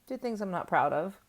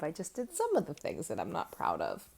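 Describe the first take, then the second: First: Said in the usual way. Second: "some" leaned on, then the rest falling away; correcting herself by hitting "some"; stress on SOME. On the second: Shown as a demonstration. To her viewers, correcting herself, stress on "some". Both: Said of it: "I didn't do all the things".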